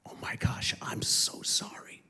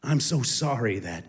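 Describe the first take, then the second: First: Whispered, breathless I'm so sorry; almost no voice, like a confession; hushed apology. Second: Said in the usual way. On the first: Retold or imitated. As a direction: whisper the apology close to her. Retold tearful apology to daughter.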